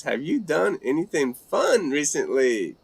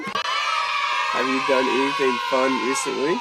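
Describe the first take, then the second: First: Said in the usual way. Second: Mock game-show announcer call; hammed-up show host shout. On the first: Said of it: "B three X says". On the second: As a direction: boom it out as if opening a show. Repeats question like show host.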